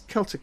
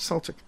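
First: The word begins with a hard K sound. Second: The word begins with a soft S sound. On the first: The speaker calls it right. "It's Celtic, not Celtic. But it's spelled with a C" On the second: The speaker calls it wrong. "not Celtic"

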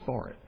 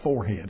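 First: The second part is reduced to 'id'. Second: The second part is a full 'head'. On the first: The speaker calls it right. "it's forehead" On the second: The speaker calls it wrong. "It's not forehead"

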